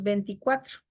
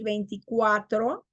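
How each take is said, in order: First: "veinticuatro" said as venticuatro; diphthong reduced. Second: Said in the usual way. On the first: Shown as a demonstration. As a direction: drop the i glide in "veinticuatro". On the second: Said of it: "En vez de decir".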